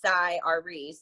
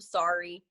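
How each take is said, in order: First: The name starts with a sigh sound. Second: The name starts like the word sorry. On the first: This is the name's real pronunciation. The speaker calls it right. "That's his real name too. It's Cy Ari" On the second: This is how many people say the name. The speaker calls it wrong. "a lot of people sorry"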